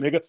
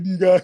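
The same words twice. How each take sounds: First: It is said in an American accent. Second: It is said in an imitated African accent. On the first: The speaker calls it right. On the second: The speaker calls it wrong. "they're not even saying it right"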